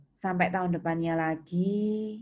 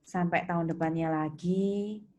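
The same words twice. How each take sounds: The two takes are said the same way.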